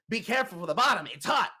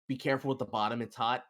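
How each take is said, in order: First: It is said louder. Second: It is said at normal volume.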